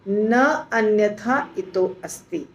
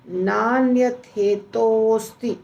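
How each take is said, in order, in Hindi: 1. शब्द अलग-अलग टुकड़ों में बोले गए हैं। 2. शब्द एक लंबे शब्द में जुड़ गए हैं। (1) "यानी हमने इस शब्द को तोड़ दिया, तोड़ के बोला" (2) "तो यहाँ दिखता क्या है"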